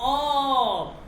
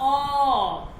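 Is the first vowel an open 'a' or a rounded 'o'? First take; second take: rounded o; rounded o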